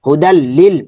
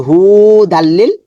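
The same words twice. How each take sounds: First: Quick correct হুদাল লিল with no lengthening; correct reading. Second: Drawn-out wrong take of হুদাল লিল with a slow rising end; wrong reading. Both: Shown as a demonstration. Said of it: "তাহলে সেটা হবে না".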